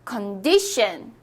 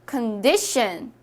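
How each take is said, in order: The two takes are said the same way.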